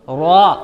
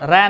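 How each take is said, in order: First: The r is heavy with a rounded vowel. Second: The r is thin with an open a. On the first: The speaker calls it right. "रॉ को पुर करना है, मोटा करना है" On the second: The speaker calls it wrong. "रा नहीं"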